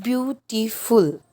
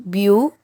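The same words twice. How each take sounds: First: Said in the usual way. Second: "beautiful" in three separate beats with long gaps; syllable by syllable. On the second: Shown as a demonstration. Teacher asking how many syllables, "beautiful" broken into three parts. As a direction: break "beautiful" into beau, ti, ful. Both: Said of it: "So how many syllables?".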